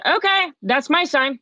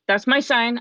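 First: Excited realization. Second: Said in the usual way. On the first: Retold or imitated.

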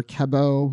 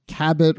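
First: Cabot as "ka-BO", silent t; French-style pronunciation. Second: Said in the usual way. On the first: Shown as a demonstration. Host offers another reading of the name, Cabot with a silent French t. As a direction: say Cabot the French way, ending on an open "oh". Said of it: "a French".

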